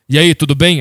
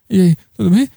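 First: The greeting sounds steady and confident. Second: The greeting sounds nervous and insecure. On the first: It hides the anxiety behind a secure front. "tem que ser seguro, vamos lá" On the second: It shows the honest inner anxiety. "Se a gente fosse agir honestamente no mundo, a gente ia estar sempre assim"

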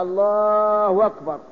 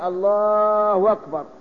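First: A w sound links the two words. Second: The same.

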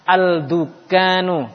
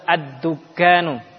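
First: The L is clearly pronounced before the D. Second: The L merges into a doubled D sound. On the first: The speaker calls it wrong. "Al-dukanu kan sulit" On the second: The speaker calls it right. "langsung ke ad-dukanu"

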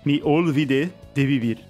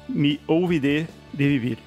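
First: The l in olvide is clearly pronounced. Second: The l in olvide is dropped, sounding like ouvide. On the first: The speaker calls it right. "você tinha que falar olvide" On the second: The speaker calls it wrong. "Gostou do meu sotaque?"

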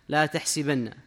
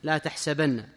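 First: The vowel after the s is i. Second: The vowel after the s is a. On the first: "يقرؤونها بكسر السين" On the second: "عاصم فتح السين"

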